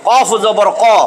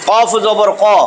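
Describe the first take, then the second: No difference in how they are said.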